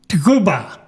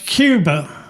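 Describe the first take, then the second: First: Cuba is said with a Spanish pronunciation. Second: Cuba is said with an English pronunciation.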